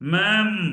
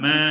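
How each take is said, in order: First: The word ends with a closing m sound. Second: The word ends on an open vowel. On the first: The speaker calls it wrong. "മാം അല്ല" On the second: The speaker calls it right. "ആട് കരയുന്ന പോലെ മേ മേ അങ്ങനെ പറഞ്ഞാലേ ശരിയാവുള്ളൂ"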